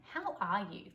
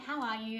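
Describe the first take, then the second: First: It is said earnestly, with purpose. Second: It is said casually, in passing.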